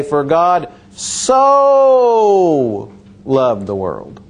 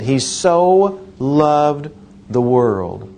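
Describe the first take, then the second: First: For God so loved, with so slow and held; stress on so. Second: So stretched slowly; He so loved, so drawn out; stress on so. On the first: Retold or imitated. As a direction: lean hard on so, stretched slowly. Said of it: "emphasize one word". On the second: Shown as a demonstration. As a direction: hold the word so long. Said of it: "That's what He did".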